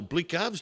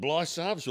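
First: First syllable of "Blickarves" rhymes with brick; "Blickarves", hard k after the short vowel; alternative pronunciation. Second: First syllable of "Blysarves" rhymes with fly; "Blysarves", no k sound after the vowel; alternative pronunciation. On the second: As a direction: say "Blysarves" with a long eye vowel. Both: Shown as a demonstration. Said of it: "depending on where you went to school".

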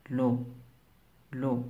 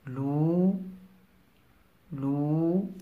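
First: "لو" with a short, quick u; short vowel demo. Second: "لو" with a stretched, rising uu; long vowel demo. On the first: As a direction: cut the u in "لو" short. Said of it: "لأن زمن نطقها قصير". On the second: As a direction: hold the u in "لو" long. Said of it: "لأن زمن نطقها طويل". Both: Shown as a demonstration.

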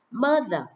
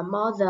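First: "Mother" with an ah-to-uh first vowel; correct A-like vowel. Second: "mother" with an open aw vowel; mispronounced O vowel. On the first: Teacher modelling for students, "Mother" with an uh vowel. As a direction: say "Mother" as MUH-ther, higher and falling. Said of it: "phát âm chữ A hoặc là qua chữ ớ một chút xíu". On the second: Teacher showing many students' mistake, "mother" with an aw vowel. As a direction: say "mother" wrongly as maw-ther. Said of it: "Rất nhiều bạn đọc là mother là sai nhé". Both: Shown as a demonstration.

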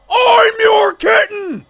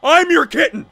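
First: High, gushing shout; excited fan cry. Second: Said in the usual way. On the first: Acted. Fan answers the streamer's kittens greeting, high excited cry. Fan repeats reply more wildly.

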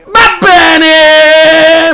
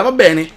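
First: Shout. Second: Said in the usual way. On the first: Real, not acted.

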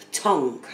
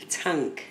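First: Tank said as tonk, with an o sound. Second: Tank said with a flat a as in cat. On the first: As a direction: say tonk, rounded o. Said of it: "I don't say tonk". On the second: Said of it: "I say tank". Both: Shown as a demonstration.

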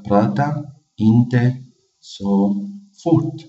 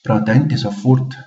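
First: Drawn out slowly, syllable by syllable; teacher pronouncing slowly; slow demo. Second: Said in the usual way. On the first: Shown as a demonstration. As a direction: say it slowly for learners. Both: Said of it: "لا تتكلم بسرعة".

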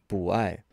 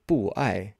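First: BU rising in second tone, then AI falling. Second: BU in a falling fourth tone before AI; two falling tones. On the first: Teacher shows the tone change, BU rising before falling AI. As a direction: lift BU upward before AI drops. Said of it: "changes over to a second tone". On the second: Teacher shows the unchanged form, BU falling before AI. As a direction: drop the pitch on BU, then again on AI. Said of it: "fourth tone or a falling tone". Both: Shown as a demonstration.

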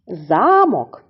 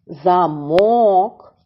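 First: "Замок" stressed on За-, falling after; stress on first syllable. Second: "замок" with a long stressed -мок; stress on second syllable. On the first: Teacher reviewing the pair, stress on first syllable. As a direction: say "Замок" as ZA-mok. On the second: Teacher reviewing the pair, long stressed second syllable. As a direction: stretch MOK in "замок": za-MOOK. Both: Shown as a demonstration. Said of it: "іще раз повторюємо".

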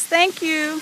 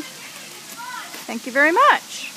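First: Said in the usual way. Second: Slow, higher sing-song thank you. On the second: Real, not acted. Mom thanks toddler for sunglasses.

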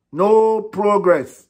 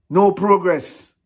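First: No progress dragged very slowly, NO higher; slower emphatic. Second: NO drawn out slow and falling; slow emphatic. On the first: Fan ranting about the coach, slower and heavier. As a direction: stretch every syllable of No progress. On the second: Fan ranting about the coach, slow heavy stress. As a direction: lean hard on NO, slowly. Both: Real, not acted.

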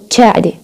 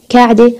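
First: تشاعدة starting on ch; ch variant. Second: كعدة starting on k; plain k variant. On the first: Teacher contrasting dialects, تشاعدة with a ch sound. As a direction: turn the kaf into ch in تشاعدة. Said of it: "في عنا، آه، variations". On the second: Teacher contrasting dialects, كعدة with a k sound. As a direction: say كعدة with a clear k. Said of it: "حرف الك ممكن نستخدمه ك". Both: Shown as a demonstration.

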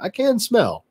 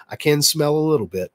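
First: "can" pitched higher and stretched; stress on can. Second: Said in the usual way. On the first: Real, not acted. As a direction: lift and hold "can" in "I can smell". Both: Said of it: "I'm so stopped up".

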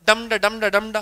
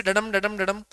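First: "डम ड" chanted with the weight on "डम" first; heavy "डम", light "ड", in a repeating beat; stressed-unstressed rhythm. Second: "डडम" chanted with the weight on "डम"; light "ड", heavier "डम", in a repeating beat; unstressed-stressed rhythm. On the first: Teacher sounding out the reversed pattern, "डम ड" stressed on its first beat. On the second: Teacher sounding out the iambic pattern, "डडम" stressed on its second beat. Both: Shown as a demonstration. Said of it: "डम जो है".

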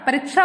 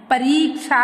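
First: "परीक्षा" with a short i, "pa-rik-sha"; wrong pronunciation. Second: "परीक्षा" with a long "ree"; correct pronunciation. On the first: Teacher asking if it's this, mispronounced. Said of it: "नहीं". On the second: Teacher giving the right word, correctly pronounced. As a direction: stretch the i in "परीक्षा": pa-reek-sha. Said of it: "होता है". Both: Shown as a demonstration.

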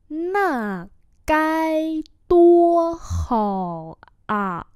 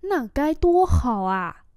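First: Very slow, long held tones; slow model reading. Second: Said in the usual way. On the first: Shown as a demonstration. Teacher repeating a phrase for learners, very slowly. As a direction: stretch every syllable out.

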